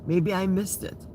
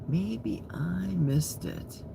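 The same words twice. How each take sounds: First: Said in the usual way. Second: Slow, breathless whisper to herself. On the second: Shown as a demonstration. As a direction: whisper it slowly, just air. Repeats line as a whisper.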